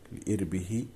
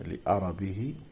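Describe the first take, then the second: First: The hamza and r do not both carry 'a'. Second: The hamza and r both carry an 'a' vowel.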